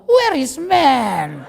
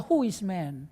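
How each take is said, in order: First: "Where is man?" drawn out very slowly and louder, through a laugh; hammed-up pleading search for a man; desperate older woman. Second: "Who is man?" said soft and dismissive, falling at the end; a young woman shrugging off suitors; choosy young woman. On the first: Preacher mimics a thirty-year-old woman, drawn-out mock desperation. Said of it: "Tetapi begitu tiga puluh tahun". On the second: Retold or imitated. Preacher mimics a twenty-year-old woman, softly dismissive. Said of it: "dia berkata".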